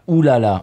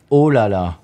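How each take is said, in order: First: The first vowel is a rounded 'oo' sound. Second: The first vowel is an open 'oh' sound. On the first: It is how foreigners imitate the French. The speaker calls it wrong. "en français, on ne dit pas ouh là là" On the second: It is what French speakers actually say. The speaker calls it right. "on dit oh là là"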